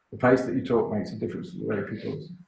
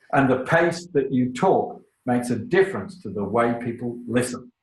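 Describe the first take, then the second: First: Rushed and softer, low in pitch; too fast. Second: Measured pace. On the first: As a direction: race through it quietly with no contrast. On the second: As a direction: let each phrase land for the listeners. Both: Shown as a demonstration. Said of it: "Do not speak too fast".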